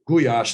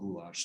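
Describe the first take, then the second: First: It is pronounced the Hungarian way. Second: It is pronounced the American way. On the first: "gulyás is really how you pronounce it" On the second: "most Americans pronounce it goulash"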